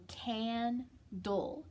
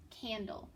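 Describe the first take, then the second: First: Candle drawn out very slowly; slow stretched. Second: Said in the usual way. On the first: Shown as a demonstration. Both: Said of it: "it's got a short A".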